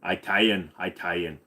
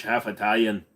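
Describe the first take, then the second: First: Italian said as EYE-talian, first syllable like eye; mock pronunciation, Italian starting with a long eye; Italian with a joking eye sound at the start. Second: Said in the usual way. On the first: Shown as a demonstration. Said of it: "You're an Italian".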